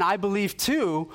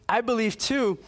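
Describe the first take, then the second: First: Slow, higher, emphatic insistence on too; a friend insisting he believes too; imitated earnest claim. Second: Much higher, with a laugh on too; a friend half laughing as he says it; imitating giddy amazement; laughing disbelief. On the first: Friend repeats claim, first take. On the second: Friend repeats claim, laughing.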